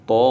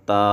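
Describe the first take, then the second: First: The letter name is sounded heavy and full. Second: The letter name is sounded thin and light. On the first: The speaker calls it right. "तो को भी मोटा पढ़ेंगे" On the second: The speaker calls it wrong. "ता ऐसे नहीं पढ़ना"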